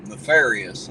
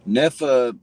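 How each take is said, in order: First: "Nefarious" said whole, firmly and a bit louder; confident pronunciation. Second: "Nefa?" sounded out haltingly with a questioning rise; unsure pronunciation. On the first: Streamer finally getting the viewer's name right, confident. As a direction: land "Nefarious" as if it has finally clicked. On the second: Streamer reading a viewer's name off chat, unsure and questioning. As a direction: stumble over "Nefa?" as if reading it for the first time. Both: Real, not acted. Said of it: "I don't know if I'm pronouncing this correctly".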